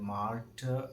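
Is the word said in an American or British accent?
American. The word is said in an American accent. "American ഇംഗ്ലീഷിൽ"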